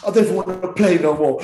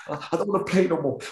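First: Put-on louder, whiny child's wail; big baby. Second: The same sulky line said quieter and higher; a milder replay of the child's sulk; softer baby whine. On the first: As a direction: sulk it out like a crying kid. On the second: Retold or imitated. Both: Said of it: "I was like a big baby".

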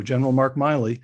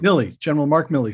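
First: Milley with its first syllable rhyming with "smile"; Milley mispronounced as Miley. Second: Milley as "MILL-ee", with a short i; corrected to Milley. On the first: Host unsure of the general's name, Milley said "MY-lee". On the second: Host takes guest's correction, repeating Milley with short i. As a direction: say Milley to rhyme with "silly". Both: Real, not acted. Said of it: "Is it Miley or Milley?".

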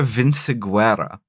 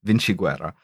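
First: "Vinciguerra" said with an S sound for the C; S-sound pronunciation. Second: "Vinciguerra" with a CH sound, vin-chi-GWERR-a; corrected Italian pronunciation. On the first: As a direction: say "Vinciguerra" with C as in city. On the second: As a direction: correct yourself to "Vinciguerra" with C as in cello. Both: Real, not acted.

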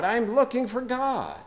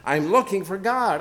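First: Higher, more desperate repeat of the cry; cried out. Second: A madman's raised cry, pitched up; cried out. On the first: Preacher reading Nietzsche's parable, the madman's cry rising higher. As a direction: climb even higher on the second cry. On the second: Preacher reading Nietzsche's parable, the madman crying out. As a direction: call out searching for God. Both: A narrator's reading. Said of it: "cried incessantly".

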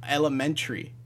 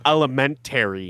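First: "elementary" said as ele-men-tree; "tree" ending. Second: "Elementary" said as ele-men-tary; no "tree" ending. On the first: Insisting everyone says it so, "elementary" ending in "tree". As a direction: squeeze the end of "elementary" into "tree". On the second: Correcting co-host's word, "Elementary" with a full "tary". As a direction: sound out "tary" fully at the end of "Elementary". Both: Shown as a demonstration. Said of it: "putting tree at the end".

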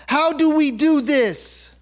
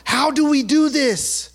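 The two takes are said the same way.

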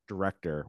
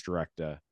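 First: Said in the usual way. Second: "director" in a Boston accent, final r dropped; Boston accent slipping out on "director". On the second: Real, not acted. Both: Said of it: "Wow, my Boston accent came out there".

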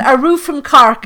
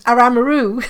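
First: Said in the usual way. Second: Lightly put-on Cork accent, words run together as 'Aramaroo'. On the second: Shown as a demonstration. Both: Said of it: "they go in the Cork accent".

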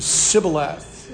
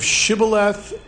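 First: Sibboleth begun with a plain hissed "s". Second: Shibboleth begun with a clear "sh"; sh sound. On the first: Teacher showing how those who could not say "sh" said it, Sibboleth with "s". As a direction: say Sibboleth slowly, with "s" in place of "sh". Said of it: "on the other side could not". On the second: Teacher showing the class the accepted word, Shibboleth with "sh". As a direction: say Shibboleth slowly, with a hushing "sh" at the start. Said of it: "or S H's". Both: Shown as a demonstration.

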